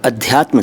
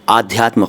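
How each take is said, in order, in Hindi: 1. यह शब्द ह्रस्व 'a' स्वर से शुरू होता है। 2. यह शब्द दीर्घ 'aa' स्वर से शुरू होता है। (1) "अध्यात्म सही" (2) "आध्यात्म गलत"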